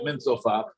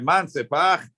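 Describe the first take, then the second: First: It is said with the vowels of min sofach. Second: It is said with the vowels of man sepach. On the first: The letters come from the prophets. "The reason why I pronounce it min sofach" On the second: Someone asks who said it. "you should say man sepach"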